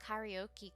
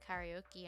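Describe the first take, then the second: First: It is pronounced with English-style sounds. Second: It is pronounced with English-style sounds.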